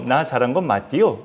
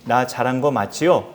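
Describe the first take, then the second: First: It is said in a North Korean dialect. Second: It is said in standard South Korean speech.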